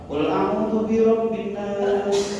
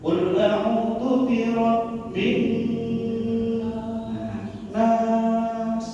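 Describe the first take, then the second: First: The n sounds are held for one beat. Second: The n sounds are held for several beats. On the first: "Itu satu ketukan" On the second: "N-nya ditahan"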